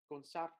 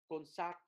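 The two takes are said the same way.

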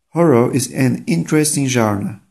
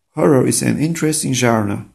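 The two takes are said the same way.

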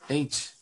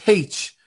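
First: The letter name starts with a vowel sound. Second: The letter name starts with an h sound. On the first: "same in London" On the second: "it's supposed to be H. ... H-A-Y-T-C-H"

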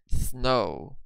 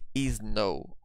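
First: The word starts directly with the s sound. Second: An extra vowel is added before the s. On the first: The speaker calls it right. "No vibration. Snow" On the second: The speaker calls it wrong. "Don't say is snow"

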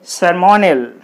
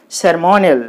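Both takes have the same delivery.

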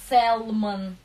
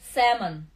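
First: An L sound is pronounced before the M. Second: No L sound is pronounced before the M. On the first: The speaker calls it wrong. "он не читается сэлмон" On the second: The speaker calls it right. "эл не читается"

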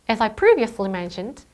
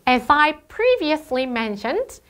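First: The phrase is delivered smoothly. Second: The phrase is delivered choppily. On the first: The speaker calls it right. "이렇게 훨씬 자연스러워졌어요" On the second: The speaker calls it wrong. "아까 IH 같은 경우는"

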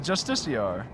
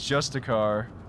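First: The word ends with a 'shar' sound. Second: The word ends with a 'car' sound. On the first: The speaker calls it right. "Oh yeah, Justiciar" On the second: The speaker calls it wrong. "I've always read it as Justicar"

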